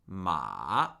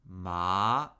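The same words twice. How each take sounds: First: The pitch starts high and falls sharply. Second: The pitch dips down, then rises higher. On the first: "And fourth tone, falling, starting where the first tone lives" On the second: "Third tone, falling and rising"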